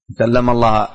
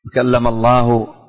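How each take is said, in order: First: "الله" ending in an open "a", as Allaha; final fatha. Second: "الله" slowly drawn out to end in "u", as Allahu; slow reading, nominative -u on "الله"; final damma. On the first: Teacher showing the innovators' altered reading, "الله" ending in -a. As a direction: say "الله" with the accusative -a vowel. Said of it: "إذا كان يقرأ بالنصب". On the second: Teacher modelling the correct reading, slow, "الله" ending in -u. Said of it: "الرفع والضم". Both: Shown as a demonstration.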